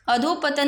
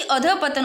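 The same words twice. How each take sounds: First: "अधोपतन" with a full o after dh; rejected pronunciation. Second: "अधोपतन" as adhah-patan, without the o; corrected pronunciation. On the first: Teacher showing the error, "अधोपतन" with dho. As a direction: run adho straight into patan in "अधोपतन". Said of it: "अधोपतन नहीं". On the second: Teacher giving the correction, "अधोपतन" as adhah-patan. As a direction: say dha with visarga in "अधोपतन". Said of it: "अधोपतन होता है". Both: Shown as a demonstration.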